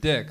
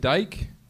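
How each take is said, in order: First: The name has the short vowel of 'kick'. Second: The name has the long vowel of 'bike'. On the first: This is how it is said in the current place. "But here they pronounce it dick" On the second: This is how it is said where the speaker was born.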